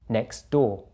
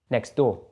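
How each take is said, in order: First: It is said a little more slowly. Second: It is said at normal speed. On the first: "the second time a little bit slower" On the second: "then at normal speed again"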